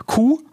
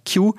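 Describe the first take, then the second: First: Q said as German "koo"; German letter name. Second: Q said as English "kyoo"; English letter name. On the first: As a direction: pronounce Q the German way, "Kuh". (Q deutsch als „Kuh“ ausgesprochen) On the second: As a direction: pronounce Q like the word "cue". (Q englisch als „Kju“ ausgesprochen) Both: Real, not acted. Self-corrects English letter to German.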